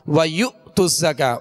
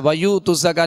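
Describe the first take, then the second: First: A sharp glottal catch follows the syllable 'yu'. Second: The syllable after 'yu' flows on without a catch. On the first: The speaker calls it right. "बल्कि" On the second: The speaker calls it wrong. "नहीं पढ़ेंगे"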